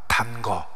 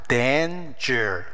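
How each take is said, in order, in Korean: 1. 한국어 음절 dan-geo처럼 발음해요. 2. 영어 단어 danger처럼 발음해요. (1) "이렇게 읽으면 안 돼" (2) "위험이란 뜻이야"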